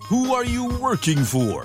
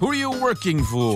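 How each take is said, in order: First: The sentence is spoken at a normal pace. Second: The sentence is spoken at a fast pace.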